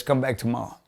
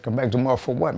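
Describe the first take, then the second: First: Said in the usual way. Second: Indignant echo rising on what; retold indignant question, a bit louder; incredulous echo. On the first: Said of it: "He says". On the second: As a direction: throw the words back in disbelief. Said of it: "I said".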